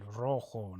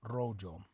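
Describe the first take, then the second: First: The j is said like an h. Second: The j is said like an English j. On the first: The speaker calls it right. "the J makes an H sound" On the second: The speaker calls it wrong.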